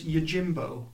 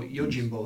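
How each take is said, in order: First: "Yojimbo" with a hard j, as in jam; first pronunciation attempt. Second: "Yojimbo" with a softer zh for the j; alternative pronunciation attempt. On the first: Unsure of the film title, offering "Yojimbo" with a hard j. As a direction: say "Yojimbo" with a firm English j. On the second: Correcting themselves on the film title, "Yojimbo" with a softened zh. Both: Shown as a demonstration. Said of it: "I don't know how you pronounce it".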